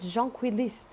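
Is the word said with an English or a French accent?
French. The word is said with a French accent. The speaker calls it wrong. "with like a French accent"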